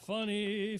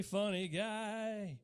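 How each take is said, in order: First: Said in the usual way. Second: Funny guy stretched slowly and dry; slow sarcastic deadpan; drawn-out deadpan. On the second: Shown as a demonstration.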